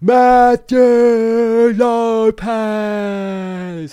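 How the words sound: The name is said in a British accent.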